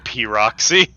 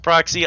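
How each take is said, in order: First: The P is said as a separate letter name. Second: The P blends with the R into one syllable. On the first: "I'm not going to pronounce it that way" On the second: "It's probably supposed to be pronounced proxy"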